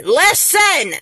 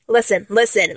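First: High, emphatic LISTEN; insistent cry. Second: Said in the usual way. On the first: Acted. Fan demanding idol's attention, sharp high cry.

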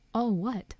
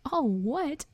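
First: Said in the usual way. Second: High-pitched incredulous echo; outraged question, pitch swooping high; thundered disbelief. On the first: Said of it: "asked Harry". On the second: A narrator's reading. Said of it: "Hagrid thundered".

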